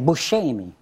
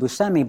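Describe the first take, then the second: First: The name is said the Sicilian way. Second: The name is said the usual American way. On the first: This is how people in the family's home town say it. "town where my grandfather was from, they say Buscemi" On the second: This is the familiar everyday version of the name. "I'm so used to Buscemi"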